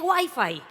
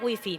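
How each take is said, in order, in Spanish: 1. Se pronuncia a la manera inglesa. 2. Se pronuncia a la manera española. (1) "que se dice Wi-Fi" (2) "Dame la clave de la wifi"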